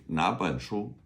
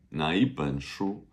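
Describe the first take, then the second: First: Said in the usual way. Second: 哪一本书 with 哪一 run together as nei; inserted yi sound. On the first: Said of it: "kind of put in like a". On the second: Shown as a demonstration. Teacher showing which book, yi slipped in after 哪. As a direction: glide from na into yi in 哪一本书. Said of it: "kind of put in like a 哪一".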